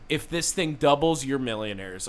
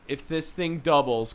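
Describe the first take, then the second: First: It runs on with no pause after 'doubles'. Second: There is a clear pause after 'doubles'. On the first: The money doubles the listeners' millionaire status. The speaker calls it wrong. "There was not a good pause there" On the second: If the investment doubles, the listeners become millionaires. The speaker calls it right.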